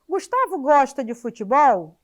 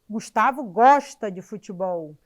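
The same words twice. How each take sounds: First: It is said as a question. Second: It is said as a plain statement.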